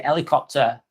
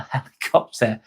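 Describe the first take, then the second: First: Helicopter said as 'elicopter, no H; dropped H. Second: Helicopter with a clear H at the start; proper H. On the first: Showing chat how locals drop the H in helicopter. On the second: Correcting to a proper H in helicopter. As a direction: sound the H in helicopter. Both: Shown as a demonstration. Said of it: "we don't say the H's".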